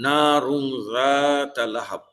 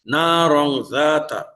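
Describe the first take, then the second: First: রং read with u, slowly; না রং জাতা লাহাব with ra switched to u; deliberate wrong vowel. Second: না রং with a on ra, slow recitation; না রং জাতা recited slowly with ra short a; correct recitation. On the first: Teacher shows students the wrong vowel, deliberately misread. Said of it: "এখানে যদি আমি পেশ দিয়ে পড়ি". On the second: Teacher recites the correct vowel, slow careful recitation. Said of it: "রয়ের উপরে জবর আছে". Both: Shown as a demonstration.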